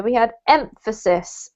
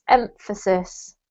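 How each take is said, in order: First: Said in the usual way. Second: Emphasis said slowly and clearly, every syllable laid out; careful teacher pronunciation of Emphasis; slow model word. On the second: Shown as a demonstration.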